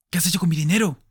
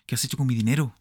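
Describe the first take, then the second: First: High, loud furious roar. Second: Only slightly raised, urgent question; a half-raised repeat of the demand; mild shout. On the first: Smith roars at Nettie over his money, loud and high. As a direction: bellow it down at her. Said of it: "rugió Smith". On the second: Smith asks Nettie again, a milder raised voice. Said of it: "gritó". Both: Acted.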